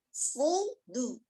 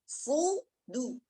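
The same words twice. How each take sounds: No difference in how they are said.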